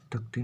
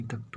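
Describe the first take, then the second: First: "तख्ती" with an extra final vowel, as takh-ti; wrong pronunciation demo. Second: "तख्त" ending on the bare consonant cluster, as takht; no vowel after the final t of "तख्त"; correct pronunciation demo. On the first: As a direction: end "तख्ती" on an i sound. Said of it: "तख्ती नहीं". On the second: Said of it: "तख्त होता है". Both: Shown as a demonstration.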